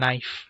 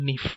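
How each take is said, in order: First: The vowel sounds like 'eye'. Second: The vowel sounds like 'ee'. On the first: This is the modern pronunciation. "তারপর আমরা বলি নাইফ" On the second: This is the old pronunciation. "তো তারা বলতো নিফ"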